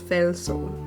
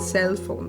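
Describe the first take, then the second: First: The first word begins with an f sound. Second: The first word begins with an s sound. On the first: The speaker calls it wrong. "It becomes Felsoul" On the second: The speaker calls it right. "I mispronounce everything, even cell phone"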